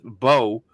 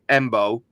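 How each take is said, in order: First: The name begins directly with a b sound. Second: The name begins with an m sound. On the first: This is how others said the name at the Senior Bowl. "I hear them pronouncing it just Bo" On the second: This is how the speaker has been saying the name. "I've been pronouncing his name Embo"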